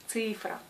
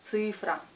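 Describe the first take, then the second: Both takes have the same delivery.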